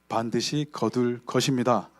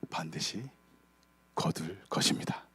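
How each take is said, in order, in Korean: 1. 가장 크게, 세 배쯤 크게 말합니다. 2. 보통 크기로, 조금 작게 말합니다.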